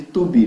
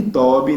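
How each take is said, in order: First: "to be" as too-BEE, hard T; wrong "to be" with an "oo" first vowel; wrong pronunciation. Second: "to be" as TOH-bee, like Toby; wrong "to be", first vowel a full O; wrong pronunciation. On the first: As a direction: mispronounce "to be" as "tubi". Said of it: "porque é muito feio". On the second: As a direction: mispronounce "to be" with an O in the first syllable. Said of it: "Não chama nem de". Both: Retold or imitated.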